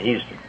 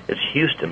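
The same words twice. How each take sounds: First: "Houston" said the Texan way, opening vowel altered; Texan pronunciation. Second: Said in the usual way. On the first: Shown as a demonstration. Contrasting how Texans say "Houston", Texan pronunciation. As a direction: give "Houston" its local Texas pronunciation. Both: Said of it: "but they say Houston".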